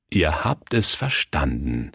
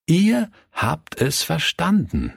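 First: Said in the usual way. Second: Ihr high, set apart by a pause; stress on IHR. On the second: A narrator's reading. Pastor contrasting children with adults, heavy stress on Ihr. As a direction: lift and hold the word Ihr, then pause.

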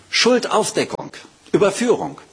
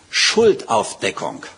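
First: "Schuldaufdeckung" thrown out much higher, ringing; "Schuldaufdeckung, Überführung" called out high with emphasis; high emphatic repeat. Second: "Schuldaufdeckung" said slowly and low, falling at the end; "Schuldaufdeckung" drawn out, low and falling; slow low statement. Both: Shown as a demonstration. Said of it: "Er sagt".

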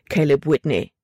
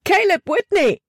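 First: Said in the usual way. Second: Much higher, frightened cry of his name; girl startled by a voice in the dark, screaming; panicked scream. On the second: A narrator's reading. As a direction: shriek it in sudden fright. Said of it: "Von panischer Angst erfüllt, schrie Libby auf".

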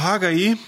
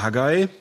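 First: Haggai with the final i as its own syllable; Haggai, split as Ha-ga-ee; first pronunciation variant. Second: Haggai ending in one gliding "eye" sound; alternative pronunciation. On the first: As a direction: say "Haggai" in three parts, ending on a separate ee. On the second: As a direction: say "Haggai" in two parts, like Ha-guy. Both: Shown as a demonstration. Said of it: "wie auch immer ihr das aussprechen möchtet".

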